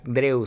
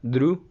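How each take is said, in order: First: The vowel starts with an e sound. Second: The vowel is a plain oo sound. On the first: The speaker calls it wrong. "No suena drew" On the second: The speaker calls it right. "sino drew"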